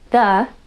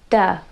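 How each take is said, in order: First: It begins with a voiced th sound. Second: It begins with a d sound. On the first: The speaker calls it right. "instead of saying the" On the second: The speaker calls it wrong. "they say duh"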